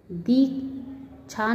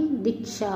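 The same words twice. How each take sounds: First: दीक्षा as "dik ... chha", split and slow; mispronounced. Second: Said in the usual way. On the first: Shown as a demonstration. Teacher showing students an error, दीक्षा mispronounced with chh. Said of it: "नहीं होता". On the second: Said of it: "दीक्षा होता है".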